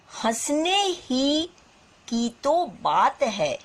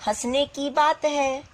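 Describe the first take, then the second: First: हंसने ही stretched slowly, ही leaned on; stress on particle ही. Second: Said in the usual way. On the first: Shown as a demonstration. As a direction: dwell on हंसने ही to show the emphasis. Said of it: "यहाँ तो हो सकता था". ("ही" पर ज़ोर देकर धीरे बोलें) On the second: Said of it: "ये भी हो सकता था".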